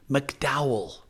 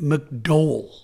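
First: It uses the American pronunciation of the name. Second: It uses the Northern Irish pronunciation of the name. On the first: The speaker calls it wrong. "you say in the States" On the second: The speaker calls it right. "We say it McDowell"

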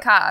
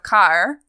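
First: The final R is dropped, Australian style. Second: The final R is pronounced.

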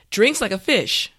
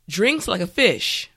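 The two takes are said the same way.

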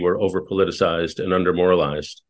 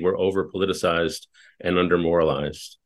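First: It is said at a normal pace. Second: It is said slowly.

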